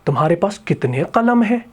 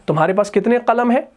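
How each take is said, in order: First: It is said in an exclaiming, telling tone. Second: It is said in an asking, questioning tone.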